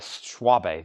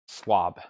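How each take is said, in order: First: The name ends with an extra vowel after b. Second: The name ends on the b, with no final vowel. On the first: The speaker calls it wrong. "I guess that's not correct" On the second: The speaker calls it right. "E is silent"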